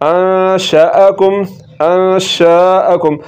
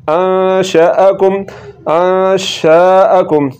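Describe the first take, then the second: Both takes have the same delivery.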